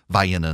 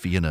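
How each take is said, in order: First: It is pronounced the local South Georgia way. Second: It is pronounced the usual standard way. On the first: It names the Georgia town. "pronounce all the names of the cities in South Georgia" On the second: It names the European city. "instead of"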